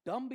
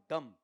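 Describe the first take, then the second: First: डम्ब with the final b sounded; pronunciation option. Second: डम ending on m, silent b; pronunciation option. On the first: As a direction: say डम्ब as "dumb-b", closing on a b. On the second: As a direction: say डम as "dum". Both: Shown as a demonstration. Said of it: "यहां जरूर उच्चारण पे जाऊंगा".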